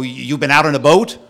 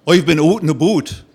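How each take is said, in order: First: Said in the usual way. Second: Put-on thick Canadian accent, boat said as "but". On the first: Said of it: "And he'll go". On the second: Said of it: "a thick Canadian accent".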